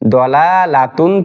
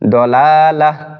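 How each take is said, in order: First: The word ends with a t sound and -un. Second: The word ends with an h sound.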